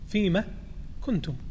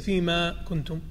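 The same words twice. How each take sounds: First: The vowel in fima is held at normal length. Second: The vowel in fima is stretched out extra long. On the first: The speaker calls it right. "فيما كنتم وليس" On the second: The speaker calls it wrong. "مد أو إشباع مد فيما"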